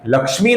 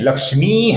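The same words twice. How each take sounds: First: The final vowel is short. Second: The final vowel is long. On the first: The speaker calls it wrong. "नहीं है" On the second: The speaker calls it right. "ये लक्ष्मी दीर्घ है"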